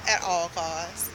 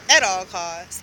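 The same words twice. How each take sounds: First: Said in the usual way. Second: At all costs, repeated louder for emphasis; firm emphatic warning; stress on costs. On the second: Real, not acted. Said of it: "avoid Broward Central Terminal at all costs".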